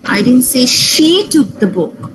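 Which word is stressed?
she. The stress falls on the word she. Someone else took the book. "he took the book"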